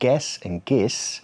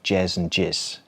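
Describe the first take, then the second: First: The G is pronounced hard, as in 'go'. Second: The G is pronounced soft, as in 'gem'. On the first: "with a hard G" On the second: "a softer G"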